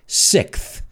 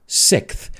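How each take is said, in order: No difference in how they are said.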